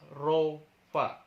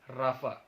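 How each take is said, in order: First: The first vowel sounds like 'oh'. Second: The first vowel sounds like 'ah'. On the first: "R O P H A" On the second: "Tapi dibacanya Rafa"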